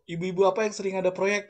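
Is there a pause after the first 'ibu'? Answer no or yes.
no. The two ibu run together without a pause. It asks which mothers often have projects. "Kalau ibu-ibu"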